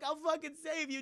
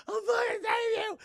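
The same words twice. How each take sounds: First: Imitated desperate cry. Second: Very high, loud, hammed-up scream; mock desperate shout. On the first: Sonya calls to Jax being taken. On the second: Sonya as Jax is taken away, mock desperate shout. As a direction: scream a promise after someone dragged away, overdone.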